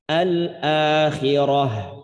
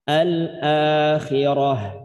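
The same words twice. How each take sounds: No difference in how they are said.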